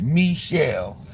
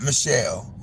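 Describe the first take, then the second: First: Michelle said slowly as "mee-SHELL"; French-style first syllable. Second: Michelle said "muh-SHELL"; reduced first syllable. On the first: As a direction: stretch a clear "mee" at the start of Michelle. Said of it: "supposed to be pronounced". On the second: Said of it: "not Michelle". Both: Shown as a demonstration.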